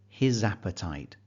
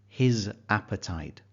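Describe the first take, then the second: First: The two words run together like one word. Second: The two words are said as separate words. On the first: The speaker calls it right. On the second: The speaker calls it wrong.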